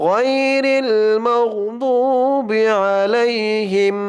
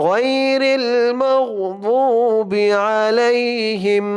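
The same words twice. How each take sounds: No difference in how they are said.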